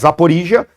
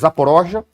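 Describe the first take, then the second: First: The name is said without the Russian pronunciation. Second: The name is said with the Russian pronunciation. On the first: This is the usual form. "Mas Zaporizhia" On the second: This is how Russians say it. "a pronúncia russa é Zaporozhia"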